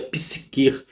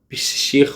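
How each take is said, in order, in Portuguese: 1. A palavra é dita de um jeito mais claro em português. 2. A palavra é dita de um jeito que soa grego. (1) "a gente pronuncia psiquer de forma mais clara" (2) "o grego fala sobre psique, psicher"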